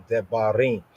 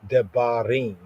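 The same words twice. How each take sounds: Both takes have the same delivery.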